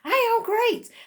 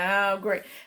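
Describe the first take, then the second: First: It is said with conviction, as if meant. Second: It is said reluctantly, without conviction.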